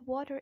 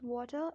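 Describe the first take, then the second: First: American "water", final R sounded; American accent. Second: British "water", ending in 'tuh'; British accent. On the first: Teacher contrasting accents for learners, American "water". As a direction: end "water" on a strong R, American style. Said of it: "water in American accent". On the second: Teacher contrasting accents for learners, British "water". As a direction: drop the final R in "water", British style. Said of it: "water in British accent". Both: Shown as a demonstration.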